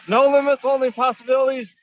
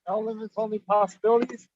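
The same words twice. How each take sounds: First: It is said louder. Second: It is said at normal, quieter volume.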